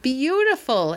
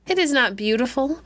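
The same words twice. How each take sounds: First: A higher, delighted exclamation; exclaiming. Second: Put-on higher little girl's protest, stress on is; a touch of tears, insisting; tearful child. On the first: King to his daughter, admiring the golden rose, delighted. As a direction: marvel at the word Beautiful. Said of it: "exclaimed her father". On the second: Daughter contradicting her father about the rose, upset. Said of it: "answered the child, as well as her sobs". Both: A narrator's reading.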